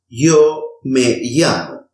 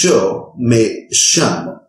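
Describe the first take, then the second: First: The y and ll are soft, y-like sounds. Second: The y and ll are hissing, sh-like sounds. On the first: "pronounce both of them as a soft E sound" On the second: "pronounce it as a sibling sound"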